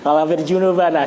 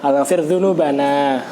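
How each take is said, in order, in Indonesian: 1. Kata itu diawali dengan bunyi 'j'. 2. Kata itu diawali dengan bunyi 'dz'.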